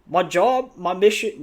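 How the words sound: It is said in an attempted Australian accent. "I'll try. ... That's already bad"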